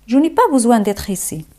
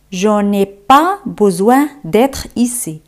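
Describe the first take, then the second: First: Fast, connected repeat; quick flowing French, no breaks; natural-pace French model. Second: Slow, phrase broken into chunks; careful teaching pace; slow French model. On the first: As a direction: run the whole phrase together fluently. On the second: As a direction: model it slowly, pausing after "pas" and "besoin". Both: Shown as a demonstration. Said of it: "¿Cómo se dice en francés?".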